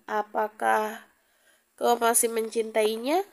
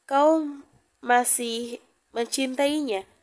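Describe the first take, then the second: First: Understated sad question, rising at the end; subdued, mildly sorrowful question; lowered, sad tone. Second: Deliberate, word-by-word "Kau ... masih mencintainya", mildly insistent; slightly pressed tone. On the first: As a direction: ask it with a touch of sadness, lifting the last word. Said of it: "Nada Sergio terdengar merendah". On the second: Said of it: "dengan nada yang sedikit ditekan". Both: A narrator's reading.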